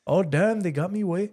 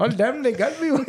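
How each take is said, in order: First: Lightly put-on Hispanic accent; a hint of a Hispanic accent, half-hearted. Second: Put-on higher, laughing Eastern accent. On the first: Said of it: "like, Hispanic voice". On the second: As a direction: break into laughter through a bad Eastern accent. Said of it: "a little Eastern".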